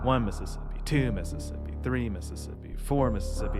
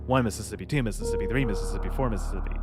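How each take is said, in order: First: The counting is slow and measured. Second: The counting is rushed and fast.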